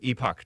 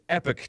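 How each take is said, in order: First: It is said with a British pronunciation. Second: It is said with an American pronunciation. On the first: "if you're British, you would pronounce it Epoch Times" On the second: "Americans pronounce it Epic Times"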